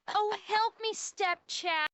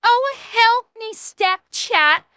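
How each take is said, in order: First: High, very soft helpless begging; soft mock plea. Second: High, slow, full-voiced mock plea; meme damsel plea. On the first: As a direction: plead feebly, mock-helpless and hushed. Soft first take of meme plea. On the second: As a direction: ham up a drawn-out cry for help. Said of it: "I'll do the end of the meme".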